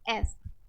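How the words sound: The vowel is a flat 'a' as in 'cat'. "American में जब हम इसको बोलेंगे"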